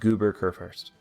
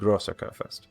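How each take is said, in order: First: The first word sounds like 'Goober'. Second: The first word sounds like 'Grosser'. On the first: The speaker calls it wrong. "I've been pronouncing this wrong. It is not" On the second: The speaker calls it right. "It is the"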